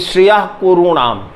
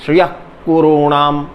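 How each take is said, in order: First: The visarga is a rough back-throat friction. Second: The visarga is a plain breathy h. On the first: The speaker calls it right. "बल दिया कि" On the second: The speaker calls it wrong. "ऐसा न पढ़िए"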